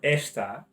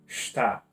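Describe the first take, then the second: First: The word begins with an audible e vowel. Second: The word begins directly with the s sound. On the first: The speaker calls it wrong. "instead of being está" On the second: The speaker calls it right. "you take away the e altogether and you say"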